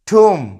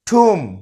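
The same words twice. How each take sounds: First: The final b sound is silent. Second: The same.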